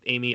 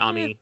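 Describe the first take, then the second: First: The name is said with an American English pronunciation. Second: The name is said with a Japanese pronunciation. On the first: "Amy in American" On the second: "Ami in the Japanese one"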